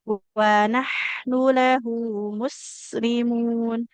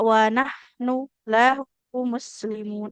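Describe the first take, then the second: First: The phrase is read straight through without pausing. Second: The phrase is broken by a brief stop inside. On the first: The speaker calls it right. "nggak boleh dijeda ya" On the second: The speaker calls it wrong. "Tidak wanah nu lahu muslimun. Nggak berhenti sejenak dulu ya"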